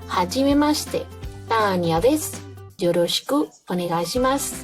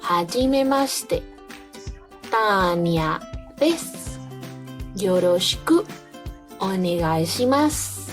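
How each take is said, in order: First: The phrase is spoken at a faster pace. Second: The phrase is spoken at a slower pace.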